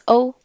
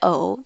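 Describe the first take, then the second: First: The syllable is said without the dipping tone. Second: The syllable is said with a dipping tone. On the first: "O-U prononce O" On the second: "Avec le troisième ton, ça fait O"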